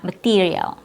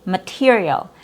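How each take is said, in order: First: "material" as ma-TEE-rial; tense "material" with a tight EE; long E sound. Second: "material" with a lax TIH; short I sound. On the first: Teacher recapping the version to avoid, long E. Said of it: "not a long E sound". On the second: Teacher recapping the right version, short I. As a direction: relax the stressed vowel of "material". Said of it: "has a short I sound". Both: Shown as a demonstration.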